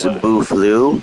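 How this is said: The word is said with a French pronunciation. It is the original French name meaning beautiful flow. "however you say it in French"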